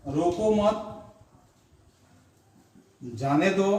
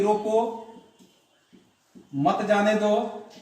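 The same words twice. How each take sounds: First: रोको मत together, long pause, then जाने दो; pause after मत. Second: रोको alone, long pause, then मत जाने दो; pause after रोको. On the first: Teacher showing the opposite meaning, pause after रोको मत. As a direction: break after मत, leaving जाने दो separate. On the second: Teacher showing how a comma changes meaning, pause after रोको. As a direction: break right after रोको, keep मत with जाने दो. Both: Shown as a demonstration. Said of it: "सिर्फ चिन्ह से ही इसका क्या हुआ कि इसके अर्थों का".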